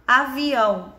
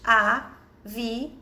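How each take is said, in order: First: Said in the usual way. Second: "Avião" slowly as a, vi, ão; syllable by syllable. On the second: Shown as a demonstration. Teacher separating the word into little pieces, slowly syllable by syllable. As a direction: split "Avião" into three held pieces. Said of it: "vamos separar em pedacinhos".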